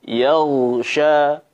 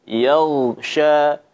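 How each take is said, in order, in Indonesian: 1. Vokal pertama ringan dan jelas, seperti 'ya'. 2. Vokal pertama ringan dan jelas, seperti 'ya'.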